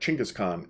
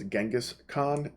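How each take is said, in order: First: The name begins with a 'ch' sound. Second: The name begins with a 'j' sound. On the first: This is the more proper version. The speaker calls it right. "really a more proper way of pronouncing his name" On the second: This is the commonly heard version. The speaker calls it wrong. "a lot of times you're going to hear him pronounced as Genghis Khan"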